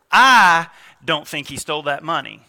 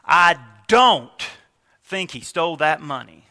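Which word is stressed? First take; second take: I; don't. First: The word 'I' is stressed. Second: The word 'don't' is stressed. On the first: The speaker doesn't think so, but someone else may think he did. "Put an inflection on the first word" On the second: The speaker is absolutely sure he didn't steal it. "Move it to the don't"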